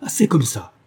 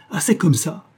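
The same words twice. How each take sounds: First: Moderately raised angry protest; a touch of fury; enraged cry. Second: Higher-pitched angry outburst; raised, defiant protest in rage; defiant cry. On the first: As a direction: cry out in contained rage. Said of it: "cria-t-il". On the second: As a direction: cry it again with rising defiance. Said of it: "en toisant James d'un air de défi". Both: A narrator's reading.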